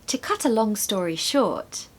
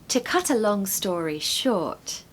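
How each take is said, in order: Both takes have the same delivery.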